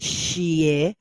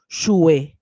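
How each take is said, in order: First: The vowel after sh sounds like ee. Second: The vowel after sh sounds like oo. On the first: The speaker calls it right. "replacing it the- with a y sound" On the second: The speaker calls it wrong. "pronouncing it as a shue"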